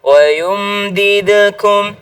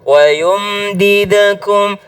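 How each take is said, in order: No difference in how they are said.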